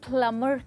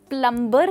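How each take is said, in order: First: No b sound is heard after the m. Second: A b sound is heard after the m. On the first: The speaker calls it right. "प्लमर कहते हैं। तो यानी कि बी की जो sound है वो है silent" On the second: The speaker calls it wrong. "प्लम्बर नहीं"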